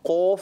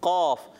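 First: It is said with strongly rounded lips. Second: It is said heavy but without lip rounding. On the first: The speaker calls it wrong. "ہونٹوں کو اتنا گول نہیں کرنا قاف نہیں" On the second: The speaker calls it right. "قاف موٹا بھی کرنا ہے مگر ہونٹ گول نہ ہو"

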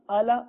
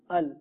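First: The l is followed by a vowel. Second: The l ends the syllable with no vowel. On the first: The speaker calls it wrong. "الا نہیں پڑھنا" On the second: The speaker calls it right. "اس کو ساکن کیا ہے ال"

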